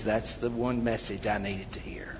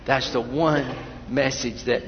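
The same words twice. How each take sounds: First: Whispered thanks. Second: Said in the usual way. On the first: Retold or imitated. Grateful listener quoted after the sermon.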